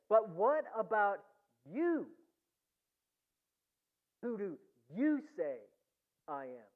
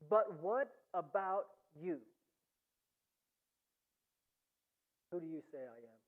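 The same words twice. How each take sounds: First: The word you is strongly emphasized. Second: It is read plainly without special stress on you.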